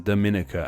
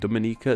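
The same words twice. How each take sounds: First: The stress falls on another syllable. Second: The stress falls on the 'ni' syllable. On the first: The speaker calls it wrong. "not said as a Dominica as I would have been tempted to say" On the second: The speaker calls it right. "the ni syllable is stressed"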